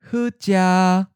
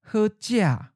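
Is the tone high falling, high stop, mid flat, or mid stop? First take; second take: mid flat; high falling. First: The tone syllable is mid pitch, level and held. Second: The tone syllable falls from a high pitch. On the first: "Mid flat" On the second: "the eighth tone is often of a high falling tone"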